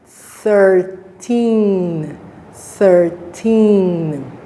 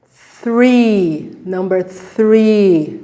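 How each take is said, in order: First: Thirteen drawn out with th; thirteen contrast. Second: Three said short with th; three contrast. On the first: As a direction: stretch thirteen. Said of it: "Second one". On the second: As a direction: say three clearly. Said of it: "The first one was". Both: Shown as a demonstration.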